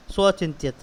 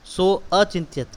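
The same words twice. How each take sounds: First: सो अचिंत्यत with the अ after सो barely sounded, gliding straight into चिंत्यत; shortened avagraha a. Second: सो अचिंत्यत with the अ of अचिंत्यत clearly sounded; full a sounded. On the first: Teacher shows avagraha, अ barely sounded. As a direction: say सो अचिंत्यत with the अ clipped almost to nothing. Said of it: "अ बहुत कम उच्चारण किया हमने". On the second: Teacher shows the wrong way, अ fully sounded. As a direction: say सो अचिंत्यत giving अचिंत्यत its full opening अ. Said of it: "सो अचिंत्यत इस प्रकार से बोलेंगे". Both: Shown as a demonstration.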